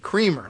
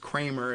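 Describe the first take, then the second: First: The first syllable sounds like 'cream'. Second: The first syllable does not sound like 'cream'. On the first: "like non-dairy creamer" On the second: "I don't know whether he pronounces it as Kramer, as some people do"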